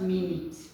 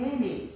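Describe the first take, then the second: First: The vowel is pronounced a different way. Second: The vowel is pronounced the standard way. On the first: The speaker calls it wrong. "not minute" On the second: The speaker calls it right. "Please give me one minute"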